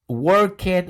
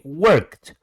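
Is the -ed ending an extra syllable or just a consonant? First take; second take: extra syllable; just consonant. First: The ending is said as an extra syllable. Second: The ending is said as just a consonant. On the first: The speaker calls it wrong. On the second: The speaker calls it right.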